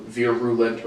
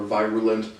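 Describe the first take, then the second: First: First "virulent" as VEER-uh-lent; short-i pronunciation. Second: "virulent" as VYE-ruh-lent; long-i pronunciation. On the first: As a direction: try out "virulent" with an "ear" vowel up front. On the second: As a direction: try out "virulent" with an "eye" vowel up front. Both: Shown as a demonstration. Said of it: "not confident on the pronunciation".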